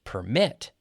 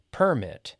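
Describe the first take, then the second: First: PERMIT as per-MIT; stress on second syllable. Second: PERMIT as PER-mit, falling; stress on first syllable. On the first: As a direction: lift and punch the second half of PERMIT. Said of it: "the verb". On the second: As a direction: hit the first half of PERMIT. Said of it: "the noun". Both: Shown as a demonstration.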